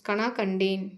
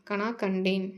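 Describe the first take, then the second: Both takes have the same delivery.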